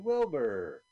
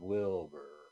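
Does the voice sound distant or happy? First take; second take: happy; distant. First: It is said in a happy way. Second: It is said in a distant way.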